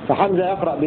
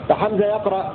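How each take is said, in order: The two takes are said the same way.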